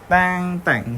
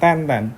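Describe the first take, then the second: First: The final n is pronounced as ng. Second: The final n is pronounced as a plain n. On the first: The speaker calls it right. "ten ten itu bacanya eng ya, teng teng" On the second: The speaker calls it wrong. "bukan ten ten"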